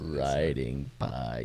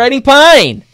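First: It is said slowly in a deep voice. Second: It is said in a normal everyday voice.

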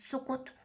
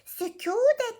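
First: The vowels are said plain and short. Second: The vowels are said long and soft. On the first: The speaker calls it wrong. "Sukut ne ya?" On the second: The speaker calls it right. "Hayır"

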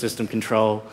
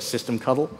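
First: The word ends with the sound 'control'. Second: The word ends with the sound 'cuddle'. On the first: "I've heard people use systemcontrol" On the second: "I'm going to call it systemcuddle"

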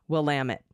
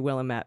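First: The ending rhymes with damn it. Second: The ending does not rhyme with damn it. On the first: The speaker calls it right. "but it's Willamette, damn it" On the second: The speaker calls it wrong. "it looks like it should be Willamette"

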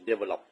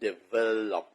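First: The stress is not on the middle syllable. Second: The stress is on the middle syllable. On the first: The speaker calls it wrong. "ไม่ใช่" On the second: The speaker calls it right. "มันต้องหนักเสียงที่คำที่เสียงกลางคือ"

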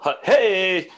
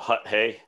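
First: The final hey is drawn out long. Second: The final hey is short and clipped.

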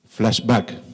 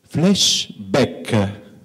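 First: It is said in a plain English accent. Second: It is said with an Italian accent.

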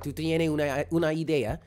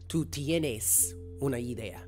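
First: The s sounds are dropped or weakened. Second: The s sounds are clearly pronounced. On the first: "here in Puerto Rico, they drop a lot of the S's" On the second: "the proper pronunciation would be"

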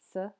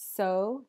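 First: The word is said with a reduced schwa vowel. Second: The word is said with a full clear vowel.

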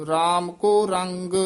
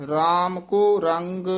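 The two takes are said the same way.

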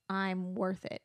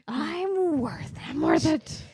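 First: It is said in a calm, ordinary tone. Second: It is said in an angry, raging tone.

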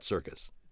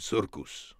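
First: The word is said in the ordinary way. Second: The word is said in a playful, altered way. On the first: This is the standard version of the word. "not circus" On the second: This is the character's own version of the word. "It just sounded funny and fun to say, so it became circus"

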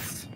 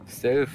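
First: The word ends with an s sound. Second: The word ends with a th sound. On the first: The speaker calls it wrong. "nicht Steals" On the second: The speaker calls it right. "Das heißt aber Stealth"

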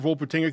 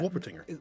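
First: The word begins with a V sound. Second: The word begins with a W sound.

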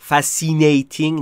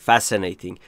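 First: The 'i' vowel is said long. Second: The 'i' vowel is said short. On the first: The speaker calls it wrong. "پس fascinating نیست" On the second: The speaker calls it right. "اینجا ای کوتاهه"

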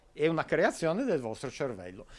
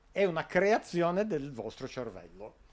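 Both takes have the same delivery.

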